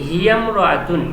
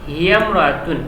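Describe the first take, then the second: No difference in how they are said.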